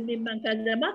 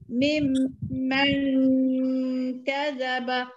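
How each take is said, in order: First: It is read quickly without a held nasal. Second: It is read slowly with a held nasal sound. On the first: The speaker calls it wrong. "Jangan kita laju je" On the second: The speaker calls it right. "lagu tu"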